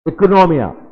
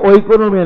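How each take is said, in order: First: The word begins with an 'ee' sound. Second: The word begins with an 'oy' sound. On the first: The speaker calls it right. "नहीं इकोनोमिया" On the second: The speaker calls it wrong. "ये ओइकोनोमिया नहीं"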